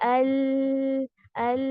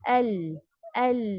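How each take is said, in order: First: The L sound is held out too long. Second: The L sound is held for a moderate length. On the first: The speaker calls it wrong. "रिखावा भी नहीं करना, अल अल ऐसे भी नहीं करना" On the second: The speaker calls it right. "Moderation"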